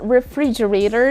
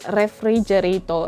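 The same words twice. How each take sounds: First: The R is said the English way. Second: The R is said the Filipino way. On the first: The speaker calls it right. "This word is refrigerator" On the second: The speaker calls it wrong. "and not refrigerator"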